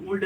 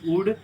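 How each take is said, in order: First: "वुड" misread with an audible L before D; wrong pronunciation. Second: "वुड" with short u straight into D; silent L. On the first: Teacher showing students what not to read, वुड with L voiced. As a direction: say वुड as woold, L sounded. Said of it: "इसको हम वुड नहीं पढ़ेंगे". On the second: Teacher correcting would, वुड with silent L. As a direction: say वुड as ood, no L. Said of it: "बल्कि वुड". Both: Shown as a demonstration.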